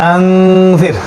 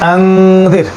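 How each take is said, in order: No difference in how they are said.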